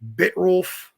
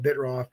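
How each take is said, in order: First: The name is said with an L sound. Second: The name is said without an L sound. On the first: "I guess is how you say it" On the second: "I always call it Bitroff"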